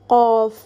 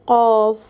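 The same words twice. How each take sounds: Both takes have the same delivery.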